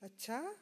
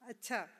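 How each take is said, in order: First: It sounds questioning and curious. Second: It sounds encouraging, inviting more talk. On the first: The speaker wants to confirm something. "with a question mark at the end, ... express curiosity" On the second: The other person is urged to keep talking. "A prompting someone to talk"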